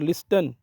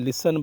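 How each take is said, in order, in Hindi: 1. s के बाद t की ध्वनि सुनाई देती है। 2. s के बाद t की ध्वनि सुनाई नहीं देती। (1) "ये नहीं बोलना" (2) "बल्कि लिसन बोलना है"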